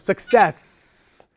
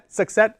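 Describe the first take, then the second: First: The final sound is held longer. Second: The final sound is cut short. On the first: The speaker calls it right. "but you hold it longer" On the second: The speaker calls it wrong. "and cut it short"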